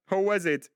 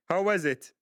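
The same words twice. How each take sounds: The two takes are said the same way.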